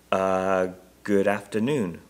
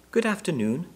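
First: Hesitant greeting after a drawn-out uh; reply unsurely, at ordinary pitch; doubtful. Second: High little bear voice; small, clear voice. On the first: Husband returning a bear's greeting, doubtful. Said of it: "replied Mister Brown doubtfully". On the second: Bear politely greeting the Browns, small clear voice. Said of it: "in a small, clear voice". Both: A narrator's reading.

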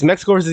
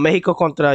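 First: Said in the usual way. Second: "Mexico" said the Spanish way, as Meh-hee-ko; Spanish pronunciation. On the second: Real, not acted. Streamer telling chat about a soccer match, Spanish pronunciation. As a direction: slip into Spanish for "Mexico contra". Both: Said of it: "I said that in Spanish".

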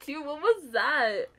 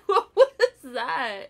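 First: Said in the usual way. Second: Slow, louder, laughing through it. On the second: Real, not acted. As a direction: crack up while asking. Laughs at partner's move.

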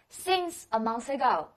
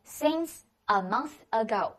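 First: Said in the usual way. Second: Each word spelled out slowly for the class; slow it right down so students can copy; slow repeat. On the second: Shown as a demonstration. Teacher repeats the phrase very slowly for students. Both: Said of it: "叫做since a month ago".

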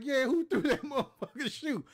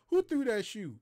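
First: Higher, louder angry comeback breaking into a laugh; pissed-off shout. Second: Mildly louder sergeant demand; a hint of an angry sergeant asking. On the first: Retold or imitated. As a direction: shout it back, furious yet laughing. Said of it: "Man, I was, I was pissed off". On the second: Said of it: "And he was like".

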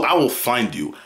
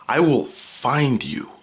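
First: Said in the usual way. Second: Slow, deliberate mock threat; mock menace. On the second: Warning viewers not to tell, in a slow mock-menacing voice. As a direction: draw it out like a movie villain.

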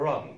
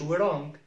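First: Wrong said "rong"; wrong with no W sound; correct silent W. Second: We wrong as one word, "wuh-rong"; we wrong with an extra W syllable before R; wrongly sounded W. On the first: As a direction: say wrong starting straight on R. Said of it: "اسمها wrong". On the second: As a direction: mispronounce wrong as "we wrong", W voiced first. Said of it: "ما نقولش we wrong". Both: Shown as a demonstration.

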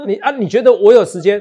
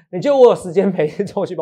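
First: Incredulous. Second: Laughing. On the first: Teasing a cohost about training. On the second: Repeats the question, laughing. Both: Real, not acted.

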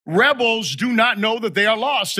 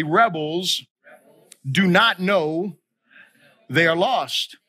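First: Said in the usual way. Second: Slow, broken into short phrases with pauses; feed the line in pieces to be repeated; call-and-response. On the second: Shown as a demonstration. Preacher asking congregation to repeat after him, slow phrase-by-phrase. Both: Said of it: "repeat after me is this".

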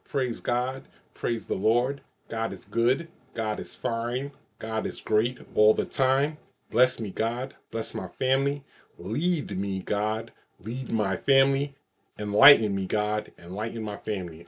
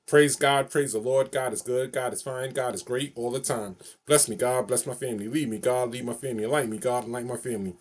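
First: Slow, drawn-out final recital of the blessing; unhurried heartfelt closing prayer; slow solemn prayer. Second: Rhythmic call-and-response prayer recital; steady sing-song praise chant; recited prayer phrase. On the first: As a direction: lay each line down slowly, like the best take. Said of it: "here it is". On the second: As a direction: chant it like a blessing you know by heart. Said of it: "I'm gonna just say my favorite phrase to you". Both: Shown as a demonstration.

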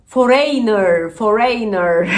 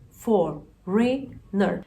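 First: Foreigner read letter by letter, fo-rey-ner; slow, spelled-out Foreigner; wrong foreigner. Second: Foreigner slow, for-in-er; correct foreigner. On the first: Retold or imitated. Teacher imitates teens saying Foreigner wrong. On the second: Shown as a demonstration. Teacher models Foreigner slowly. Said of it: "Ya ne foreigner'ı".

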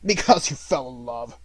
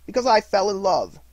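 First: Loud, contemptuous growl; miser's disgusted echo; growled scorn. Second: High, loud, heartfelt reply; happy nephew's frank confession; earnest answer. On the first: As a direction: growl it back mockingly. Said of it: "growled Scrooge". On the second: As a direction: declare it openly. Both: A narrator's reading.

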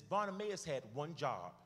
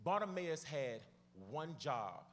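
First: Said in the usual way. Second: Slowed down, paused before "one job"; deliberately slow. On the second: Real, not acted. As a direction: let each phrase land, unhurried. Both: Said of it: "I'ma go slow".

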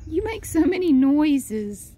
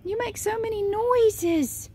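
First: Louder pet talk. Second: Much higher, slow cooing voice; much higher pet talk. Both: Real, not acted. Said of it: "repeated higher".

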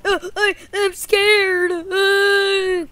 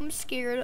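First: High, loud frightened whine; hammed-up fearful cry; mock panicked boy. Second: Softer, small frightened admission; understated play fear; timid. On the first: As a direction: wail it as a scared kid. Boy figure panics in battle. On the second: Pretend. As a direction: say it meekly as a scared boy. Boy says it softly.

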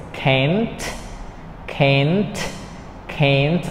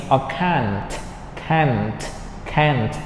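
First: Can't said with flat American a, rising; can't 读成美式扁平的 a 音，尾音上扬. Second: Can't said with broad ah vowel, falling; can't 读成英式长 ah 音，语调下降; British can't. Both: Shown as a demonstration. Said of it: "we can read in two ways".

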